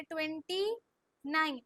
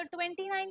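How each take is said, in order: First: twenty rising, pause, falling nine; slow dictation. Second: Said in the usual way. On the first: Shown as a demonstration. Teacher models the number before pupils repeat, slow and split. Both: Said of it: "slow slow बोलो पहले".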